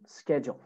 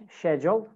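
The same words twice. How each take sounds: First: American "schedule" starting with SK; American accent. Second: British "schedule" starting with SH; British accent. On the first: Teacher models American "schedule" for students, SK at the start. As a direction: say "schedule" as American "sked-jool". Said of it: "American schedule". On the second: Teacher models British "schedule" for students, SH at the start. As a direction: say "schedule" as British "shed-yool". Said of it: "British schedule". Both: Shown as a demonstration.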